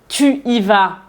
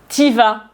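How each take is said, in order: First: The vowel of 'tu' is fully pronounced. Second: The vowel of 'tu' is dropped. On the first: "À la place de dire" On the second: "on dit"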